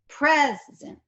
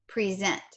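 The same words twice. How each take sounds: First: One syllable is stressed; the other vowel is schwa. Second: Both vowels are pronounced fully, with no schwa. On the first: "I have accented one of the syllables and the other one has had less stress... neutral schwa sound" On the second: "There is no schwa in the pronunciation present. Both vowels, one is a long E, one is a short E"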